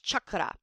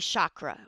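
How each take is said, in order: First: It is said with the original, non-American pronunciation. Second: It is said with the usual American pronunciation. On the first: "the correct pronunciation is chakra" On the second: "we Americans say chakra"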